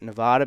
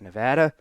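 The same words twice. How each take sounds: First: The word is said the East Coast way. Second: The word is said the way locals say it. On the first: This is how the speaker normally says it. "I pronounce it Nevada because I'm from the East Coast" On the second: This is how people from the state say it. "out of respect for the people that are from there, I will call it Nevada"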